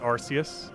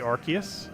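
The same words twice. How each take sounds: First: The first syllable sounds like 'arss'. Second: The first syllable sounds like 'ark'. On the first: The speaker calls it wrong. "not Arceus" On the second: The speaker calls it right. "I believe it's actually Arceus"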